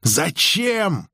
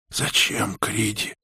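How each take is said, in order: First: Высокий выкрик без громкости; выкрикни вопрос высоко, но не громко; сдержанный выкрик. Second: Тихо и хрипло; спроси негромко, с хрипотцой; хриплый вопрос. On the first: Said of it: "выкрикнула Анги". (выкрикивая) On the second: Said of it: "хрипло спросила Анги". (хрипло) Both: A narrator's reading.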